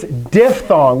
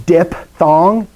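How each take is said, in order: First: Diphthong said "dif-thong", with an F sound; careful "DIF-thong" for diphthong; correct diphthong. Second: Diphthong said "dip-thong", with a P; wrong take of diphthong as "dip-thong"; mispronounced diphthong. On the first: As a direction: slowly say diphthong with PH as F. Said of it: "diphthong with a P H". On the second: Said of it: "D I P. It's not". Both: Shown as a demonstration.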